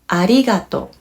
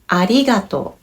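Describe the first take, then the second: No difference in how they are said.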